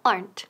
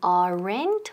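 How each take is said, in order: First: The word is said as one syllable. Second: The word is said with two syllables. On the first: The speaker calls it right. "Quedan una sílaba. Aplastamos esa E" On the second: The speaker calls it wrong. "No es aren't ni aren't"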